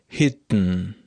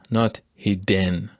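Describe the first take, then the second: First: The d is released through the nose. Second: The d is released through the mouth. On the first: The speaker calls it right. "I just release this stop through my nose, not through my mouth" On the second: The speaker calls it wrong.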